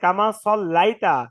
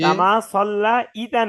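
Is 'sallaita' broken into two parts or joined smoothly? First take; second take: joined; broken. First: The word is said smoothly as one unit. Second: The word is broken apart before 'ita'. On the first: The speaker calls it right. "কামা সল্লাইতা ভাই" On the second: The speaker calls it wrong. "কামা সল্লা ইতা নাই"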